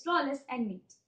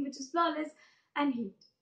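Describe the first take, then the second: First: Said in the usual way. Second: "heat" said with an H in place of the N of "neat"; misread word. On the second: Acted. Poet reading his handwriting wrongly, misread "heat".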